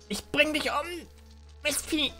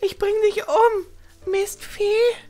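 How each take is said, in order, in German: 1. Eine vorgetäuschte Frauenstimme, die nicht richtig glaubwürdig wirkt. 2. Eine überzeugendere vorgetäuschte Frauenstimme. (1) "ich habe die Frauenstimme verkackt" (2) "Schon besser?"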